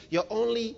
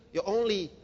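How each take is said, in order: Both takes have the same delivery.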